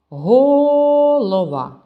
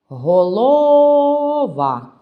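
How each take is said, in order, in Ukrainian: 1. Наголос на першому складі. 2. Наголос на другому складі. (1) "Ні, не так" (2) "Так само не те"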